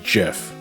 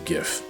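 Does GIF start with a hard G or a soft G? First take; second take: soft G; hard G. First: The word starts with a soft J sound. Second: The word starts with a hard G sound. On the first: The speaker calls it wrong. "it ain't the fucking peanut butter" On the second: The speaker calls it right. "I've always pronounced it as GIF"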